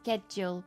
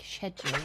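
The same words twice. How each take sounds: First: It begins with a 'sk' sound. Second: It begins with a 'sh' sound. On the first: The speaker calls it right. "because it's school" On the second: The speaker calls it wrong. "not shul, like"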